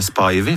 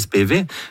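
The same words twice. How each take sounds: First: The name follows an upper-class British pronunciation. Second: The name follows the common American pronunciation. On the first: The speaker learned it from an old British broadcast. The speaker calls it wrong. "jeg trodde jeg var en flotten feier, og sa [name]" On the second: This is how everyone else says it. The speaker calls it right. "for alle sier Spivey"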